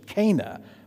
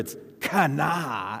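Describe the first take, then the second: First: The name is said with an English pronunciation. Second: The name is said with a Hebrew pronunciation. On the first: "That's how we read it in English" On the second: "But in Hebrew"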